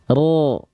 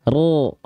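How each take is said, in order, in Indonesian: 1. Vokalnya gelap, condong ke o. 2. Vokalnya gelap, condong ke o.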